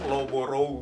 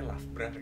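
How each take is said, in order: First: The name is read letter by letter as spelled. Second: The name is read in its local reduced form. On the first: "tulisannya kan Loboro gitu" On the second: "Tapi ternyata bacanya"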